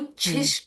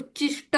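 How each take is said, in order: First: The middle consonant is an aspirated chh sound. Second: The middle consonant is a plain unaspirated ch sound. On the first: The speaker calls it right. "उच्छिष्ट पाहिजे" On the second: The speaker calls it wrong. "उच्चिष्ट असं pronunciation आलं"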